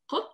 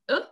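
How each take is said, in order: First: A deep q sound from the back of the throat. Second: The sound is a glottal stop. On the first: This is the standard letter sound. "in Arabic is q, and it's one of the hardest letters to pronounce" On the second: This is how it is said in the Levant and Egypt. "In the Levant, in Lebanon, most of Lebanon and most of Syria, we say u"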